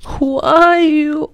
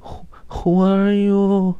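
First: Drawn-out high breathy-free falsetto, very slow; high, slow, coy "Who are you". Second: Very high, very slow coy voice; high, slow, coy "Who, who are you"; Lin Daiyu just woken. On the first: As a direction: mimic a sleepy coquettish girl asking who is there. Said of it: "就成这，这调儿了". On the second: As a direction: play a languid, just-woken delicate beauty. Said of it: "就是林黛玉". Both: Retold or imitated.

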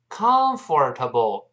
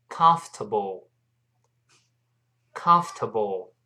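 First: "comfortable" with a full "for" in the middle; mispronounced comfortable. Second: "comfortable" slowly as "kumf-tuh-bl", silent or; correct comfortable. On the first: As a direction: say "comfortable" as four beats, com-for-ta-ble. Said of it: "不要读成comfortable". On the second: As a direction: say "comfortable" in three beats. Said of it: "那个O R 在这里是听不到的". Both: Shown as a demonstration.

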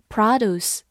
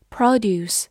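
First: American noun "produce", first syllable stressed with an open "ah"; American-accented "produce"; American pronunciation. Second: Said in the usual way. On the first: Shown as a demonstration. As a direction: say "produce" the American way, PRAH-doose. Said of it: "美式发音". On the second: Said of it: "或者读作".

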